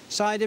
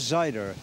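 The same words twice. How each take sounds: First: It is said in a standard accent. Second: It is said in a Midlands accent with a strong R.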